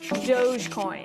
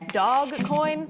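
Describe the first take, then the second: First: The first part sounds like 'dohj' with soft g. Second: The first part sounds like 'dog' with hard g. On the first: The speaker calls it right. "It's Dogecoin" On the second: The speaker calls it wrong.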